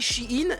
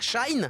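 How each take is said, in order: First: The name is said as two syllables, 'she-in'. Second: The name is said as one syllable, 'shine'. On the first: The speaker calls it right. "on disait Shein" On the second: The speaker calls it wrong. "et pas Shine"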